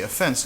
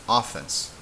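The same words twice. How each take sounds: First: The stress is on the second syllable. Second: The stress is on the first syllable. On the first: "you would have to mark it" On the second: "this ends with a vowel, so this would be pronounced"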